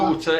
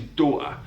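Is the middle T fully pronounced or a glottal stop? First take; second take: fully pronounced; glottal stop. First: The middle T is clearly pronounced. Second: The middle T becomes a glottal stop. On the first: "daughter into" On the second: "the glottal T"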